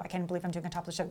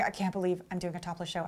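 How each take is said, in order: First: Even softer and fast, panicky muttering; fast anxious mutter. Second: Much softer, nervous muttering to herself; anxious inner voice. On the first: Showgirl on stage in Japan, panicking faster under her breath. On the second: Showgirl on stage in Japan, softly panicking to herself. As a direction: murmur it in disbelief, under your breath. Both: Retold or imitated.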